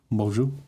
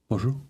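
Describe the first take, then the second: First: The word is said at a slower pace. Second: The word is said quickly. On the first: The speaker calls it wrong. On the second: The speaker calls it right.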